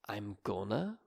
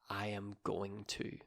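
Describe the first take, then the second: First: The words are shortened and run together. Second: Each word is said fully and separately. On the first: "saying I'm gonna instead of" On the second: "instead of I am going to"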